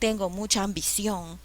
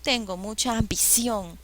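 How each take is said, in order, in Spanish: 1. El acento en ambición cae en la última sílaba. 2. El acento en ambición cae en la última sílaba.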